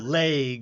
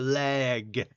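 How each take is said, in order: First: The vowel sounds like 'ay', as in 'laig'. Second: The vowel sounds like 'eh', as in 'bed'. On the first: The speaker calls it wrong. "there's not an A in those words" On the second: The speaker calls it right. "It's E"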